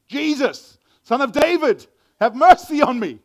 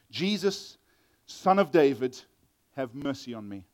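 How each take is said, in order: First: Loud, high desperate plea; big high-pitched shout; crying out. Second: Said in the usual way. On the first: Shown as a demonstration. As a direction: cry it out at full voice to be heard. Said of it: "he cried out". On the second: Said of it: "that's not right reading".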